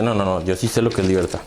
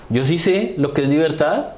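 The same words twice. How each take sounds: First: Lower, firmer voice for the other man; third know-it-all, lower. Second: First know-it-all. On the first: Another person insists on freedom, lower and firm. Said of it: "Y el otro dice". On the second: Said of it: "dice otra persona por ahí". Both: Retold or imitated.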